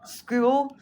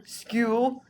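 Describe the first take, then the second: First: School? pitched up higher with a stronger incredulous rise; higher mocking question. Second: Mocking question. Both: Real, not acted.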